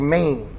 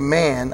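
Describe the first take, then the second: First: The word is said in a drawn-out colloquial way. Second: The word is said plainly and cleanly. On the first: "I'd say Maine" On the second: "I wouldn't say man"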